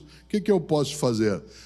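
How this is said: It sounds discouraged and resigned, trailing off.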